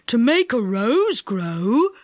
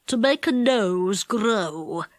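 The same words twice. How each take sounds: First: Put-on slow old man mishearing "rose" with a rising tune; delighted. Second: Slow, low goblin. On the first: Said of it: "said Saucepan in delight". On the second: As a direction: speak slowly like a wise goblin. Goblin answers Saucepan. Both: A narrator's reading.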